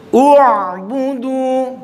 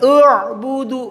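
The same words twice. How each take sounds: First: U'budu drawn out slowly, the hamzah from the throat; correct hamzah. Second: U'budu with a weak, open u; wrong hamzah. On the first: Teacher models U'budu for students. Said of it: "ketika dhamma juga sama". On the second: Teacher shows the wrong u'budu. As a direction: show the mistaken u'budu. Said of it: "bukan u'budu". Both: Shown as a demonstration.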